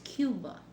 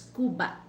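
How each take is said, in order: First: Cuba is said with an American accent. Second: Cuba is said with a Tagalog accent.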